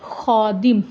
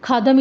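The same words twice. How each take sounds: First: खादिम with a throaty x; खादिम with a rough throat kh; correct throaty kh. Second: खादम with a breathy kh; the wrong way, खादम with aspirated kh. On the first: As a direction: say खादिम as xadim. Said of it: "For example". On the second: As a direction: say खादम as khadam. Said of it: "हम खा तो नहीं ना कहेंगे". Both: Shown as a demonstration.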